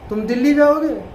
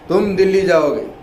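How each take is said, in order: First: It is said as an asking question. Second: It is said as a firm command. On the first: The speaker asks whether the listener will go. "सवाल हो गया" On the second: The listener is ordered to go. "हुक्मन अगर कहो"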